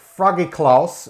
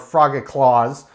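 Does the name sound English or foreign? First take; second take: foreign; English. First: The name is said with a non-English pronunciation. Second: The name is said with an English pronunciation.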